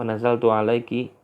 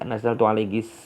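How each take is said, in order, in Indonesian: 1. Frasa ini berakhir dengan bunyi ki. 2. Frasa ini berakhir dengan bunyi s tambahan.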